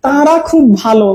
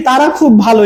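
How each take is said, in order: First: Slow, nasalised "তারা" in "তারা খুব ভালো"; exaggerated chandrabindu. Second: Said in the usual way. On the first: Shown as a demonstration. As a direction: stretch "তারা খুব ভালো" with an overdone nasal first vowel. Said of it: "তখন কি আমরা এভাবে উচ্চারণ করি". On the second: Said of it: "এরকম বলছি".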